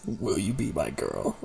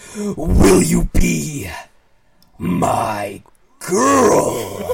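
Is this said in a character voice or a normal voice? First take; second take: normal; character. First: It is said in the speaker's normal voice. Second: It is said in a put-on character voice.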